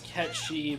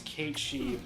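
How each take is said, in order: First: It sounds like the word catchy. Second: It sounds like Kate followed by she. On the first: This is the original full pronunciation. "the full way you pronounce it is Catchy" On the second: This is the Americanized pronunciation. "the way Americans have Americanized it is Kate She"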